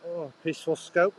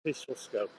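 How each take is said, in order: First: Higher, mock-wondering cry of irony; ironic exclamation. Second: Softer, dry muttered repeat; dry ironic mutter. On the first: Vlogger on a noisy road, ironic higher exclamation. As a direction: exclaim it, dripping with irony at the noise. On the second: Vlogger repeating to himself on the noisy road, quiet deadpan irony. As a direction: drop it under your breath, deadpan. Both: Real, not acted.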